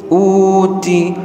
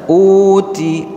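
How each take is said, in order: First: The t carries only a slight breath. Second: The t carries only a slight breath.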